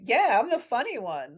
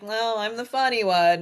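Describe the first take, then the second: First: It sounds proud and self-satisfied. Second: It sounds modest and self-mocking.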